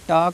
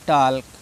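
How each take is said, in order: First: The word is said without an L sound. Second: The word is said with an L sound. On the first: The speaker calls it right. "टाक पढ़ना है" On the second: The speaker calls it wrong. "बहुत से बच्चे इसको टाल्क पढ़ते हैं"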